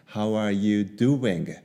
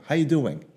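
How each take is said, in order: First: Every word is said fully at normal speed. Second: It is said fast with the words run together.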